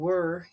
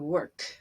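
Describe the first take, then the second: First: The final consonant sound is left off. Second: The final consonant sound is clearly pronounced. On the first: The speaker calls it wrong. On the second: The speaker calls it right.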